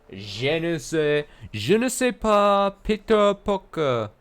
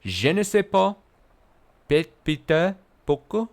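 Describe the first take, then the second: First: High, slow hammed-up French accent; mock French accent. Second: High, hammed-up French accent; mock French accent. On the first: Streamer mocking a French Spider-Man advert in a silly French accent. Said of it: "That was my best French". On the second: Streamer repeating a chat joke in a mock French accent. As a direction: ham up the French again. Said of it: "Is that how French people speak?".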